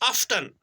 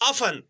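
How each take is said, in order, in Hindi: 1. बीच का T उच्चारित होता है। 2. बीच का T मौन होता है। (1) "sometimes, we pronounce it as" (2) "the correct pronunciation is often. T is silent"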